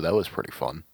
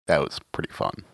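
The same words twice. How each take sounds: First: It is said in a plain, sincere tone. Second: It is said in a heavily sarcastic tone. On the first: The speaker really enjoyed it. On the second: The speaker did not really enjoy it.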